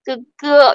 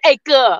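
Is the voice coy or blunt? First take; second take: coy; blunt. First: It is said in a coy, sweet voice. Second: It is said in a blunt, curt voice.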